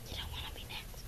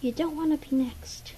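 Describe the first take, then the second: First: Soft, breathless warning whisper; creepy hushed warning. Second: Said in the usual way. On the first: Shown as a demonstration. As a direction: whisper it as an eerie threat.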